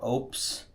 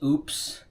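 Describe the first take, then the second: First: It sounds like one syllable, opes. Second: It sounds like the word oops. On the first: "or opes" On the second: "I've heard people pronounce this as oops"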